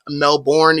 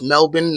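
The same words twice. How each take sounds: First: It is said the way it is spelled. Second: It is said the way Australians say it. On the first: The speaker calls it wrong. "not Melbourne, even though that's how it's spelled" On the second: The speaker calls it right. "If you ask any Australian, it's Melbourne"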